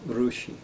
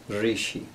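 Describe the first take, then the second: First: The first syllable has an 'u' vowel. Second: The first syllable has an 'i' vowel. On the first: Some people in other parts of India say it this way. "some people would say Rushi" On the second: This is how the speaker's own tradition says it. "We say Ri"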